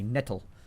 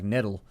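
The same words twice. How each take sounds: First: The middle consonant is a crisp, clear T. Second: The middle consonant sounds like a soft D. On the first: "if you actually say nettle" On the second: "where you use, like, a D sound right there"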